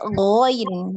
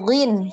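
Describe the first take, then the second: First: The vowel is an oi diphthong. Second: The vowel is a short plain i. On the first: The speaker calls it right. "tapi ghoin ya" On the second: The speaker calls it wrong. "Bukan ghin"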